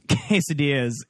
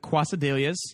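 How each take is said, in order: First: The word is given its standard pronunciation. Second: The word is given a deliberately altered pronunciation. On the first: Someone else corrected the pronunciation. The speaker calls it right. "she's actually right" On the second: The speaker chose to say it incorrectly on purpose. The speaker calls it wrong. "when you purposefully mispronounce a word"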